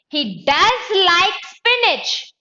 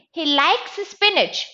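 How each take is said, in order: First: DOES hit high, loud and drawn out; emphatic insistence, leaning hard on the word DOES; stress on DOES. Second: Said in the usual way. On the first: Shown as a demonstration. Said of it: "I want to give emphasis". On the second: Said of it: "But I want to give emphasis".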